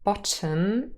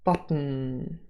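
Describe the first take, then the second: First: A short vowel is heard before the final consonant. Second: The final consonant forms a syllable without a vowel. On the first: "There's a schwa and an m in the final syllable" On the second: "the schwa has disappeared"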